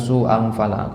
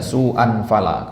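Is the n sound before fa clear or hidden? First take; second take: hidden; clear. First: The n sound is blurred into the next sound. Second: The n sound is pronounced clearly and distinctly. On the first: The speaker calls it right. "yang benar tuh su'an fala" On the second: The speaker calls it wrong. "akhi salah baca antum"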